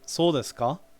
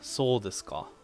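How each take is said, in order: First: The pitch rises at the end. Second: The pitch falls at the end, musingly. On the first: It asks whether that is really so. "with rising intonation" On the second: It is a rhetorical, musing remark. "use it musingly, like ah, soul desu ka, like like that"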